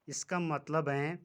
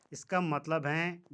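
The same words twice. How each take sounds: The two takes are said the same way.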